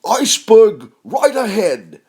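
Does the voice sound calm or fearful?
calm. It is said calmly, without fear. The speaker calls it wrong. "he says it like that"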